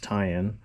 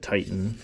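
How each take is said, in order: First: The name has no t sound in the middle. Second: The name has a t sound in the middle. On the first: The speaker calls it right. "but it's tie-in" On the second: The speaker calls it wrong. "some people pronounce it Titan"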